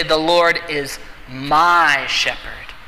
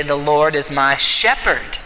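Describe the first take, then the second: First: "my" pressed, slow and personal; stress on my. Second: "shepherd" weighted, falling at the end; stress on shepherd. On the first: Pastor turns the verse into prayer, stress on "my". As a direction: lean into "my", slowly. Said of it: "He's my shepherd". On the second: Pastor turns the verse to a new word, stress on "shepherd". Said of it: "What does a shepherd do?". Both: Shown as a demonstration.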